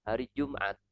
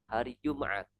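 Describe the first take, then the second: Both takes have the same delivery.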